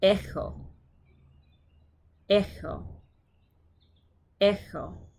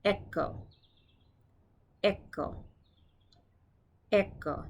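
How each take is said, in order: First: Greek-style kh in "Echo"; throaty ch. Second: "echo" with a hard k in the middle; crisp k sound in "echo"; alternative hard ch. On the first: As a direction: let air scrape through the middle of "Echo". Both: Shown as a demonstration. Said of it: "You could also say it echo".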